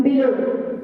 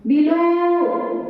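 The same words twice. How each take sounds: First: Said in the usual way. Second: Below with a long, held final vowel; wrongly stressed preposition. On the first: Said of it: "No, it's on". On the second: Shown as a demonstration. Teacher showing wrong stress on prepositions, Below stretched out. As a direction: drag out the end of Below. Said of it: "there's no stress on preposition".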